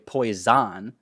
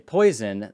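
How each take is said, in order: First: The stress is on the second syllable. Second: The stress is on the first syllable. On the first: "the second syllable gets accented" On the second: "the rest of the word just kind of gets swallowed"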